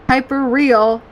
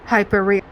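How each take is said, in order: First: It is said in an excited Valley Girl voice. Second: It is said plainly, without excitement.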